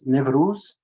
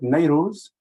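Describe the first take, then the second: First: The word has a Turkic-style pronunciation. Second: The word has an Arabic-style pronunciation. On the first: "which is a Turkic uh, pronunciation" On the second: "which is a more Arabicized uh, form"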